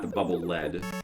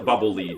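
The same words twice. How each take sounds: First: The word lead rhymes with bed. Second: The word lead rhymes with bead. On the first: It names the heavy metal. The speaker calls it wrong. "not the bubble lead" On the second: It is something that guides your way. The speaker calls it right. "I call it the bubble lead"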